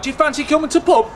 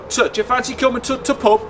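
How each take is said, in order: First: Nothing is said between 'to' and 'pub'. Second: A short 't' sound is said before 'pub'.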